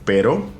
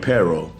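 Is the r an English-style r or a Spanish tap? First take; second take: Spanish tap; English r. First: The r is a quick Spanish tap. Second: The r is a curled English-style r. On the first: The speaker calls it right. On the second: The speaker calls it wrong.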